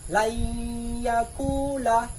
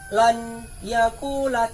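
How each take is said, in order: First: The n merges into a doubled, nasalized y. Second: The n is pronounced clearly before the y. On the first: The speaker calls it right. "tapi dibaca layakula" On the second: The speaker calls it wrong. "Tidak dibaca lan yakula"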